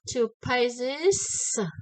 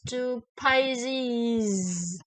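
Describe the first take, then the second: First: The final sound is an unvoiced s. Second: The final sound is a voiced z. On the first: The speaker calls it wrong. "It's not two pages and voice no" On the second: The speaker calls it right. "It's two pages with the voices"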